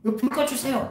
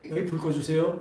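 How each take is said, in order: First: It is shouted loudly and urgently. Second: It is said in a calm, quiet voice.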